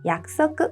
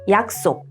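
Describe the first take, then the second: First: It is said with Japanese pronunciation, as yakusoku. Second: It is said with Korean pronunciation, as yaksok. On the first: "and in Japanese" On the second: "In Korean"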